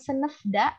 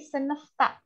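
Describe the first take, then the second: First: The suffix begins with a voiced d sound. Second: The suffix begins with a voiceless t sound. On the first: The speaker calls it wrong. "bukan senefda" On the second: The speaker calls it right. "tapi senefta"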